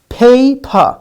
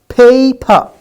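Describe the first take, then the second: Both takes have the same delivery.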